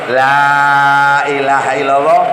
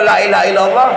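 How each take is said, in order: First: The vowel in the first 'la' is lengthened. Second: The vowel in the first 'la' is short. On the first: The 'la' keeps its meaning of negation. The speaker calls it right. "Lek nganggo tajwid la ilaha illallah lima harokat" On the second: The 'la' loses its meaning of negation. The speaker calls it wrong. "lame diwaca cendhek"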